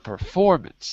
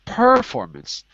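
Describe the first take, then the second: First: The stress is on the second syllable. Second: The stress is on the first syllable. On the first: The speaker calls it right. "but performance. Second syllable" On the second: The speaker calls it wrong. "Not performance"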